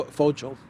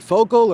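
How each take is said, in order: First: Fogel said as FOH-jul; Fogel, soft g. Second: Fogel said as FOH-gul; Fogel, hard g. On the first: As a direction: say Fogel with a j sound in the middle. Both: Shown as a demonstration. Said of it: "Is it Fogel or".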